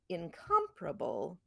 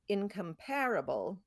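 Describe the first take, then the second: First: The stress is on the second syllable. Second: The stress is on the third syllable. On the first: "neither of them has that strong content that com does" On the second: "and then the pair gets the accent"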